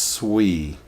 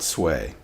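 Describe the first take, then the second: First: The vowel sounds like the 'ee' in 'see'. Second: The vowel sounds like the 'ay' in 'say'. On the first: The speaker calls it right. "It is pronounced swee" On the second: The speaker calls it wrong. "not sway"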